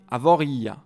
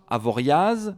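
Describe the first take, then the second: First: The stress falls on the second-to-last syllable. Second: The stress falls on the final syllable. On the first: The speaker calls it right. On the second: The speaker calls it wrong. "On ne dit pas"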